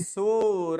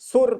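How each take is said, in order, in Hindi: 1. यह शब्द छोटे 'अ' स्वर पर खत्म होता है। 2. यह शब्द बिना स्वर वाली 'र' ध्वनि पर खत्म होता है। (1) "अंत में किसके उच्चारण हो रहा है, अ का" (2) "हम गलती क्या कर देते हैं"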